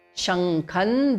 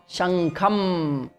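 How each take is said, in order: First: The word ends without an m sound. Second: The word ends with a clear m sound. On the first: The word is joined to the next word. "There is no ma in between now" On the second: The word stands alone. "when we are saying Shankham individually, it is Shankham ending in ma"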